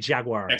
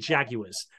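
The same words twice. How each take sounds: First: The word is said with an American pronunciation. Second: The word is said with a British pronunciation. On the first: "I never say" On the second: "I always still say"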